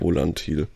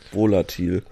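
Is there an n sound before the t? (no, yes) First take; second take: yes; no. First: The word has an n sound before the t. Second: The word has no n sound before the t. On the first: The speaker calls it wrong. "nicht Volantil" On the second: The speaker calls it right. "Volatil, nicht Volantil"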